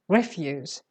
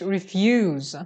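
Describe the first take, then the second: First: The stress is on the first syllable. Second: The stress is on the second syllable. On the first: It is a noun for rubbish. "when you put the stress on the fir- first syllable" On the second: It means not wanting to do something. "The stress is on the second syllable"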